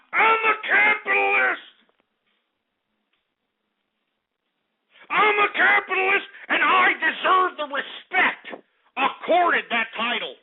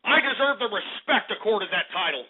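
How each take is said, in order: First: Indignant high shout. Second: Said in the usual way. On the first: Acted. Host demanding respect from his chat, a pompous high proclamation. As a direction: announce it as a pompous capitalist.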